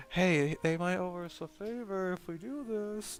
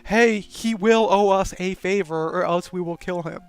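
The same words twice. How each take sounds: First: Soft, slow, hushed private suggestion; quiet conspiratorial hint; secretive aside. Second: Loud, open demand with a threat; mock loud threat; blunt threat. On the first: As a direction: murmur it like a secret plan. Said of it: "this would be something you'd whisper". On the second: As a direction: announce it like an ultimatum. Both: Shown as a demonstration.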